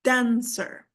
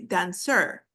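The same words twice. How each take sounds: First: "dancer" stressed DAN-cer, first beat long; stress on first syllable. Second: "dancer" wrongly stressed on the end, dan-CER; misplaced stress. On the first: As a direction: hit DAN, let cer fall away in "dancer". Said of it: "it's dancer". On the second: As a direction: push the weight onto CER in "dancer". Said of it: "We do not say". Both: Shown as a demonstration.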